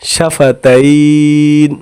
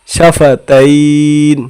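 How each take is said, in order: No difference in how they are said.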